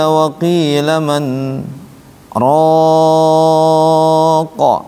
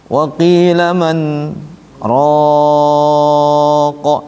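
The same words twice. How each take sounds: No difference in how they are said.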